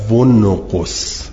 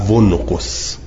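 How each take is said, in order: Both takes have the same delivery.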